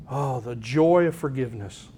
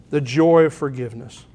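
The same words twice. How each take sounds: First: Soft, lower and hushed: Oh, the joy of forgiveness; a hushed, tender marvel at forgiveness; tender awe. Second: Said in the usual way. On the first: Real, not acted. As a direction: let the word joy glow quietly.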